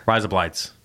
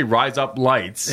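First: Said quickly. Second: Slow and careful. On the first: Host showing the Australian joke, quickly run together. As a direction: rise up lights run together fast as one word. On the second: Host showing the Australian joke, slowly and deliberately. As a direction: rise up lights said slowly, each word separate. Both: Shown as a demonstration. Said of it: "quickly, it's".

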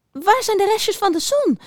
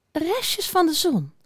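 First: Very high squeaky mouse question; piepend. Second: Slow, high, pensive musing; peinzend. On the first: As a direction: squeak it urgently as a little mouse. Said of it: "piepte ze nog eens". (heel hoog piepend muisje) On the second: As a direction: mull it over slowly. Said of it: "zei hij peinzend". (langzaam, hoog en peinzend) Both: A narrator's reading.

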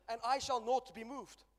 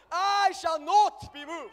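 First: Slow, loud proclamation; preached declaration. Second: Very loud, high, slow shout; full-force preaching shout. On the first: Preacher leading the church in a slow, loud declaration. Congregation chant, preacher leads. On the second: Preacher shouting the climax to the church, high and slow. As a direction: stretch every word, shouting high. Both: Acted.

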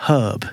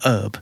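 First: HERB with the h sounded; audible h in "herb". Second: HERB as urb; H dropped. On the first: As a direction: say "herb" as hurb. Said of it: "with an H sound". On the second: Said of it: "if they speak quickly". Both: Shown as a demonstration.

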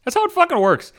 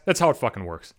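First: Much higher, HOW hammered hard; emphatic high repeat. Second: Low muttered aside. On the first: Telling off the defenders, a high emphatic repeat. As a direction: fire it back up, insisting. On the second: Telling off the defenders, a low muttered aside. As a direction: lower and softer, under the breath. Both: Real, not acted. Repeats the line in two deliveries.

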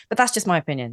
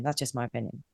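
First: Said in the usual way. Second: Much softer, lower, almost to herself; a murmured afterthought; quiet echo. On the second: Real, not acted. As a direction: drop the voice right down and repeat it. Repeats her closing remark.

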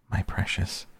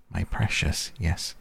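First: Creepy whispered hiss of precious; Gollum-like whisper. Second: Said in the usual way. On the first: A narrator's reading. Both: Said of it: "It has been called that before".

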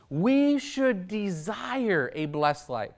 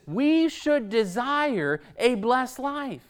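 First: Quiet, slow, earnest restatement; a hushed, deliberate echo of the line; softer, slow repeat. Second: Said in the usual way. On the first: Shown as a demonstration. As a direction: let it sink in, softer and slower.

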